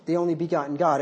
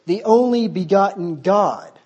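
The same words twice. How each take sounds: First: Said in the usual way. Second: Slow, louder, scornful quote of "The only begotten God."; mocking emphasis. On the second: Shown as a demonstration. Preacher mocking the NASB wording to his church, slow and scornful. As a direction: lean hard on "The only begotten God." with disdain.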